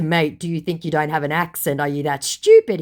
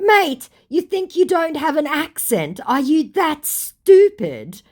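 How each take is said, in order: First: Said in the usual way. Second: High-pitched, scornful disbelief, slowing at the end; acted-out exasperated put-down; mock incredulous. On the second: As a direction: climb high in disbelief, then stretch the insult. Her incredulous reply, acted out.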